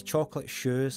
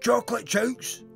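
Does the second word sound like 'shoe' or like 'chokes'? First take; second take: shoe; chokes. First: The second word sounds like 'shoe'. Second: The second word is read as spelled. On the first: The speaker calls it right. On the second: The speaker calls it wrong.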